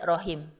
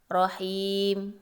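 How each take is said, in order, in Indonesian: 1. Vokal sebelum m akhir dibaca pendek. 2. Vokal sebelum m akhir dipanjangkan. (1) "Tidak boleh dibaca rahim. Ya, salah" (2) "Dibacanya boleh seperti mad tabi'i dua harkat"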